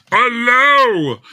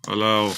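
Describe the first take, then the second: First: High, loud exasperated Allow!; exasperated shout. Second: Said in the usual way. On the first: Real, not acted. Streamer losing patience with the popup, shouting. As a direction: bark Allow! at the stubborn dialog box. Frustrated at dialog.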